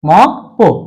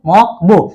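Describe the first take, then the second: First: The second syllable starts with a tense p sound. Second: The second syllable starts with a soft b sound. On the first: The speaker calls it right. "তাহলে উচ্চারণটা হবে কি মক পো" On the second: The speaker calls it wrong. "উচ্চারণটার কথা কি"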